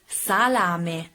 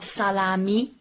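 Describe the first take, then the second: First: The word ends in an e vowel sound. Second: The word ends in an i vowel sound. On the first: The speaker calls it right. "The final E has to be pronounced E" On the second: The speaker calls it wrong. "not salami"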